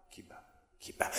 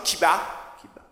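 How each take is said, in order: First: Whispered echo of the line; soft unvoiced echo. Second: Said in the usual way. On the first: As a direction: breathe it like a heartbeat.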